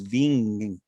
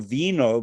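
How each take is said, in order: First: The word ends in an ng sound. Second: The word ends in a vowel, no g sound. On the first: This is the local dialect form. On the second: This is the standard Italian form.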